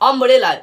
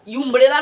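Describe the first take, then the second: First: The word begins with a short 'uh' vowel. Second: The word begins with a 'yoo' sound. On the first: The speaker calls it right. "अम्ब्रेला अ आ रही है" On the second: The speaker calls it wrong. "यूम्ब्रेला नहीं"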